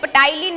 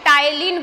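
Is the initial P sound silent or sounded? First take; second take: sounded; silent. First: The word begins with a sounded P. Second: The word begins with a silent P. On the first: The speaker calls it wrong. "यहाँ पे कोई भी इसे टाइलिन नहीं बोलेगा" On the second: The speaker calls it right. "पी क्या होता है यहाँ पे साइलेंट होता है, इसे टाइलिन बोला जाता है"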